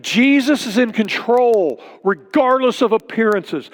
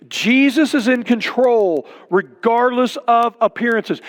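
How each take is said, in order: First: Said in the usual way. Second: Slowed restatement with "Jesus" leaned on; slower emphatic repeat. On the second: Shown as a demonstration. Pastor repeating his point to the church, slow and deliberate. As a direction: say it again slowly so it sinks in. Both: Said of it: "Don't miss what it says".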